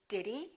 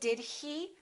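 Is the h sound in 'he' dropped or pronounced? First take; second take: dropped; pronounced. First: The h in 'he' is dropped. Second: The h in 'he' is clearly pronounced. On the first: It sounds natural and casual. The speaker calls it right. "we very often say" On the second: It sounds careful and formal. The speaker calls it wrong. "we don't say"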